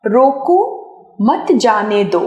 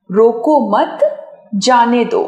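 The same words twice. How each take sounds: First: "रोको", clear pause, then "मत जाने दो" together; pause after रोको. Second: "रोको मत" together, clear pause, then "जाने दो"; pause after मत. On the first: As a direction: break right after रोको, keep मत with जाने दो. ("रोको" के बाद विराम, फिर "मत जाने दो" एक साथ) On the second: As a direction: join मत to रोको, break before जाने दो. ("रोको मत" एक साथ, विराम, फिर "जाने दो") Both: Shown as a demonstration. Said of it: "मात्र एक चिन्ह लग जाने से".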